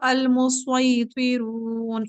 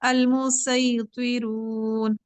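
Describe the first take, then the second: First: The s sound is heavy and thick. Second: The s sound is light and thin. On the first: "इस तरीके से मोटा" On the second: "बारीक भी"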